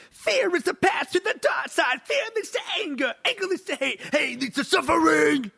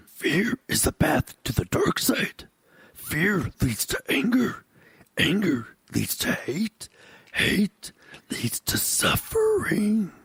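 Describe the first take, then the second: First: Much higher shouted nu-metal delivery; [name] voice. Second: Slow, higher mock Yoda, ending in a whisper. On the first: Pretend. Host does Yoda quote as [name], shouting. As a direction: yell it like a rap-rock frontman. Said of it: "in [name]'s voice". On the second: Host reads a Yoda quote as Yoda, slow. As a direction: read it like Yoda, slow and mystic. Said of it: "I'll read it like he said it".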